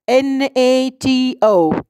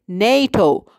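First: Each letter is said separately. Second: It is said as a single word. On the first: The speaker calls it wrong. "not as a sequence of letters" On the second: The speaker calls it right. "you pronounce it as a word"

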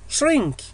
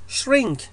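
Both takes have the same delivery.

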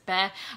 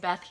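First: The name is said in an altered, imitated way. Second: The name is said in the standard way. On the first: This is how the caveman says the name. "he says Beth" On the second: This is the heroine's real name. "He can't say Beth"

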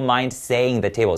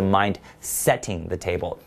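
First: Setting sounds like saying, without the t. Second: Setting is said with a clear t sound. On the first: The speaker calls it wrong. "所以不要说" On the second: The speaker calls it right. "应该是set"

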